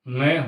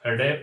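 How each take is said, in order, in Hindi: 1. यह अक्षर अनुनासिक ध्वनि से पढ़ा जाता है। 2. यह अक्षर फ़्लैप्ड र की ध्वनि से पढ़ा जाता है। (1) "ये अनुनासिक वर्ण है" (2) "अपन गलत पढ़ रहे हैं"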